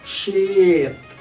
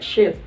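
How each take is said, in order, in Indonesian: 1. Vokalnya dibaca panjang. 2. Vokalnya dibaca pendek. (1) "panjang dia kan" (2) "kalau kita baca pendek"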